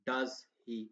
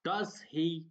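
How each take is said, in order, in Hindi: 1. टैग के आख़िर में पिच नीचे जाती है। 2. टैग के आख़िर में पिच ऊपर उठती है। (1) "अगर मैं यहाँ पे डाउन कर दूँगा" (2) "वाक़ई लग रहा है कि मैं सवाल पूछ रहा हूँ"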